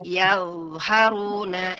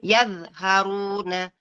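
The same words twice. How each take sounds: First: The dh sound flows on without stopping. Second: The dh sound is cut off abruptly. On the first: The speaker calls it right. "ada za-nya mengalir ya" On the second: The speaker calls it wrong. "Yang salah adalah"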